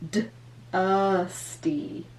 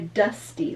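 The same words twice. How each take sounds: First: The word is drawn out slowly, sound by sound. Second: The word is said at normal speed.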